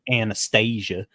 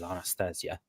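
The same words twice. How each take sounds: First: The name is said the Americanized way. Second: The name is said the traditional Russian way. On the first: "but instead of" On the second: "traditional Russian or Slavic uh, pronunciation"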